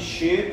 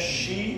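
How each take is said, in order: First: The word ends with an eh sound. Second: The word ends with an ee sound. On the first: The speaker calls it wrong. "nada de che" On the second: The speaker calls it right. "É chi"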